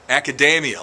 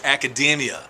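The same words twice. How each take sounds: First: The middle sounds like the word macadamia. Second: The middle does not sound like macadamia. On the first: The speaker calls it wrong. "like macadamia nuts" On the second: The speaker calls it right. "There's only one problem: it's academia"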